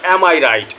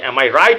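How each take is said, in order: First: The word 'I' carries strong stress. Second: The word 'I' carries no extra stress. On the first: It asserts that the speaker is right. "দ্বিতীয় শব্দের উপরে জোর দেওয়া হচ্ছে" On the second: It asks whether the speaker is right. "আমি কি ঠিক"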